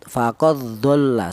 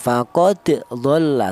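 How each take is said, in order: First: The d merges straight into the following dh. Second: The d is released with a bouncing echo. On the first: "langsung ini dal ini langsung masuk ke huruf dhad" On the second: "cara bacanya dipantulkan"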